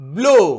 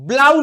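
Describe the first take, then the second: First: The vowel sounds like 'oh'. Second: The vowel sounds like 'ow'. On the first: The speaker calls it right. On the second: The speaker calls it wrong.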